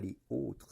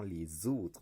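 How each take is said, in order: First: Les and autres are said apart without z. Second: A z sound links les to autres. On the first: The speaker calls it wrong. "On dit pas les autres, sinon ce serait pas joli" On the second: The speaker calls it right. "il y a une liaison... on entend les autres"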